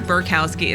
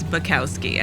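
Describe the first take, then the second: First: An R sound is added in the first syllable. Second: No R sound is in the first syllable. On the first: The speaker calls it wrong. "I always add an R. It's not Burkowski" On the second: The speaker calls it right. "it's Bukowski"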